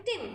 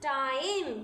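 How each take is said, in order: First: "टिम" said quickly with short "i" as in pig; short I sound. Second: "टाइम" with a stretched "eye" vowel; long I sound. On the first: Teacher shows T I M before E is added, short sound. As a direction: keep the vowel in "टिम" brief. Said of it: "जल्दी से हमने T आई एम". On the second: Teacher shows what adding E does, long sound. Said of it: "ये long sound हो गया हमारे आई का". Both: Shown as a demonstration.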